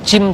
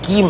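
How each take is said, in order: First: It starts with a soft j sound. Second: It starts with a hard g sound. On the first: "Orang Mesir membaca jim" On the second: "jadi gim"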